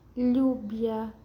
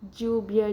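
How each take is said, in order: First: The word begins with a y sound. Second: The word begins with a j sound. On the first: "Tiene el sonido de I como lluvia" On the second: "el sonido de D J"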